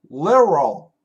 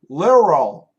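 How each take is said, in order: First: The middle consonant sounds like an R. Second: The middle consonant sounds like an R.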